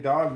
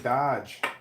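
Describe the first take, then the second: First: The word ends with a hard 'g' sound. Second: The word ends with a 'j' sound. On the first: "My daughters don't say dog" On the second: "they say dodge"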